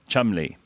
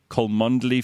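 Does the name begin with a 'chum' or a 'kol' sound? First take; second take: chum; kol. First: It begins with a 'chum' sound. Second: It begins with a 'kol' sound. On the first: The speaker calls it right. "No, Chumley" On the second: The speaker calls it wrong.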